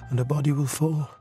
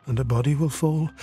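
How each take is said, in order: Both takes have the same delivery.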